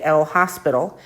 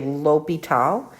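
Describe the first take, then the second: First: The name is said with an S sound. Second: The name is said without an S sound. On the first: The speaker calls it wrong. "We don't say the S. We don't say El Hospital" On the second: The speaker calls it right. "but we do say L'Hôpital"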